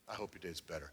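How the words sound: It is said in a sincere tone.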